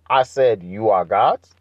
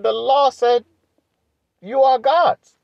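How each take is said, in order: First: Said in the usual way. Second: "The law said, you are gods" pitched much higher, stress on "gods"; emphatic preaching. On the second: Acted. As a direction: hammer "gods" high and strong. Repeats verse with emphasis.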